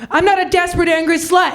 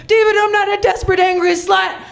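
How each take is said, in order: First: A raised, indignant declaration; mock outburst. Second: Fast mock shout. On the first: To David in his office, a raised indignant declaration. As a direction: announce it with wounded pride. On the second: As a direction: fire it out all at once, higher. Bursting into David's office.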